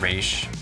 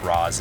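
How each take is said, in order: First: The name ends with an sh sound. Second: The name ends with a z sound. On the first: Some people say it this way. "some people have said Raish" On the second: This is the pronunciation the creator preferred. "I believe Raz is the one that Danny preferred"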